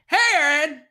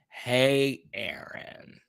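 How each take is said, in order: First: The greeting is said with lively enthusiasm. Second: The greeting is said flatly, without enthusiasm.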